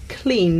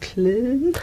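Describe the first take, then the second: First: The vowel is the present-day English one. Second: The vowel is a Middle English one. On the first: "the word for clean nowadays" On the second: "in Chaucer's time would have been more like"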